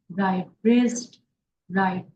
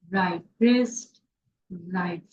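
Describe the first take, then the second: No difference in how they are said.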